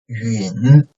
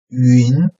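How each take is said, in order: First: The pitch dips low, then rises slightly. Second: The pitch rises from mid to high.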